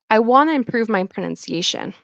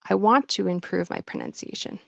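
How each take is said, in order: First: The T drops and 'want to' becomes 'wanna'. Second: The T is kept and 'want to' sounds full. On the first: "the T kind of disappears. And native speakers might say, I wanna"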